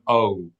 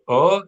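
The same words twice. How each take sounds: First: An o vowel gliding into a w sound. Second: A pure o vowel with no w glide. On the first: The speaker calls it wrong. "very thick accent" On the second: The speaker calls it right. "say O without a strong W sound at the end"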